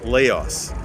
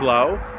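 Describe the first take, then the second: First: The word ends with an s sound. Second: The word ends without an s sound. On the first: This is the name foreigners assume. The speaker calls it wrong. "decided to pronounce it phonetically as they saw it" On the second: This is the local and French name. The speaker calls it right. "put a silent S at the word Lao, ... French pronounced it as Lao"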